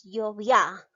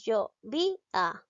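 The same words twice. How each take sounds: First: "yo vi a" run together as yo-VIÁ, stress on the last A; wrong stress on final A. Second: "yo vi a" with VI stressed and A a separate syllable. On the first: Teacher offering the wrong alternative, "yo vi a" stressed on final A. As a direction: glide "vi a" into one syllable, punching the final "a". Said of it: "o es yo vi a". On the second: Teacher testing where the voice's force falls, "yo vi a" stressed on VI. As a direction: hit "vi" in "yo vi a", keeping "a" apart. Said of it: "pronunciamos yo vi a o es". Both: Shown as a demonstration.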